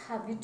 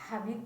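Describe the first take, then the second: No difference in how they are said.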